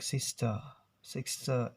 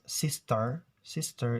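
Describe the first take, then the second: First: "sister" as sis-tuh; R-less British pronunciation. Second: "sister" with a clear final r; American pronunciation. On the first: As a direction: drop the final r from "sister", British style. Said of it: "British accent". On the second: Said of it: "in American". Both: Shown as a demonstration.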